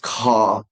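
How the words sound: The R at the end is dropped, like ah. "The British English. It's saying R like ah"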